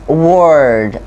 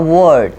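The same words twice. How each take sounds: First: The R sound is drawn out. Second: The R sound is short. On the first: The speaker calls it right. "we elongate the R sound" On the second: The speaker calls it wrong. "Why is not a word?"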